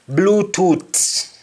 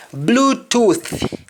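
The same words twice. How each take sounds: First: Bluetooth ending in T, as "Bluetoot"; Jamaican pronunciation. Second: Said in the usual way. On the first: Shown as a demonstration. Teacher showing Jamaican speech, Bluetooth with T for th. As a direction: close Bluetooth on a hard T. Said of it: "is missing". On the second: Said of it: "the accent is missing".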